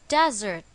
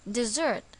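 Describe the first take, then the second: First: The stress is on the first syllable. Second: The stress is on the second syllable. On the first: A dry region of land. "the stress is on the first syllable" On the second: To leave or abandon someone. "the stress is again on the second syllable"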